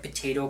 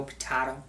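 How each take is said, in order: First: "potato" said puh-TAY-toe. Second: "potato" said puh-TAH-toe. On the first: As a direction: say potato with a long A in the middle. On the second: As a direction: say potato with a broad ah in the middle. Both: Shown as a demonstration. Compares two pronunciations.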